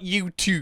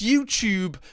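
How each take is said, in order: First: The second syllable sounds like 'too': 'toob'. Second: The second syllable has a 'y' glide: 'tyoob'. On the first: This is the pronunciation the speaker rejects. The speaker calls it wrong. "not YouTube. I will never say two" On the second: This is how the speaker's own accent says it. The speaker calls it right. "It's YouTube"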